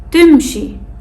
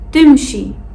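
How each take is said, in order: No difference in how they are said.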